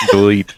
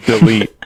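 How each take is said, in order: First: Said in the usual way. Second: Louder. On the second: Real, not acted. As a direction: repeat Delete. more firmly, louder.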